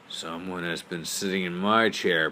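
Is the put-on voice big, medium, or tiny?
big. It is said in a big, deep voice. "said in his great big voice"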